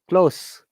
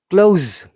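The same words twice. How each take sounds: First: The final consonant is a voiceless s sound. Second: The final consonant is a voiced z sound. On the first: It is used as a noun. "s, noun" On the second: It is used as a verb.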